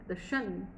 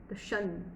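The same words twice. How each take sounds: The two takes are said the same way.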